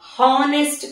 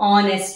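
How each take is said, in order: First: The word begins with an h sound. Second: The word begins with a vowel sound. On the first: The speaker calls it wrong. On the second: The speaker calls it right.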